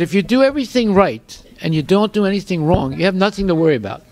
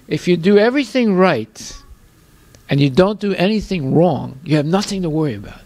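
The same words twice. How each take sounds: First: It is said at a normal speed. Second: It is said slowly and deliberately.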